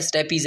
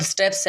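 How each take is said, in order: First: स्टेपीज in three syllables, sṭe-pee-z; स्टेपीज said sṭepiːz, the Latin way; stepes said as stapeez. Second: स्टेप्स as one syllable, sṭeps; स्टेप्स said sṭeps, short, ending in ps; stepes said as steps. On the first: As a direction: stretch स्टेपीज with a long ee before the final z. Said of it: "कुछ लोग इसको स्टेपीज पढ़ते हैं". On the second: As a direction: say स्टेप्स with no vowel before the final s, like steps. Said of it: "कुछ लोग इसको स्टेप्स पढ़ते हैं". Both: Shown as a demonstration.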